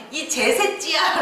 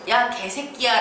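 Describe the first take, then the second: First: 제새끼야 slow with ㅈ for ㄱ, mock angry; angry slur, 개 becomes 제. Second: Said in the usual way. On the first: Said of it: "너무 화가 나서". (개 대신 제로 발음하는 욕) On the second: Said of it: "라고 욕을 해야 되는데".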